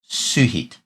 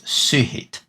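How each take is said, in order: First: The first vowel is an 'oo' sound. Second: The same.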